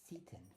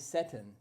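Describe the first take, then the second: First: The first vowel is a clearly pronounced E. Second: The first vowel is reduced and unclear. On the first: "we're going to enunciate the E" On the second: "Some people would say Seton"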